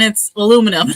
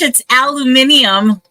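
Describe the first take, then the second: First: It is said the American way, four syllables. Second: It is said the British way, five syllables.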